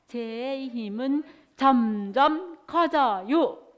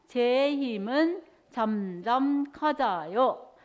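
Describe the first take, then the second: First: The voice grows gradually louder throughout. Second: The voice stays at a steady loudness.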